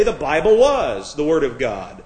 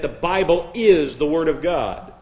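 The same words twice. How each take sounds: First: "was" punched in contrast to "is"; stress on WAS. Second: "is" leaned on, set apart from the words around it; stress on IS. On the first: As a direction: hit "was" hard, marking past tense. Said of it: "Because is is present tense". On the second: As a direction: punch the word "is" as present tense. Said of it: "I'm stressing the word is". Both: Shown as a demonstration.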